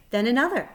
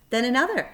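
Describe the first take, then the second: No difference in how they are said.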